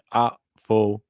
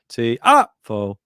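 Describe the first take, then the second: First: It is said at normal volume. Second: It is shouted loudly.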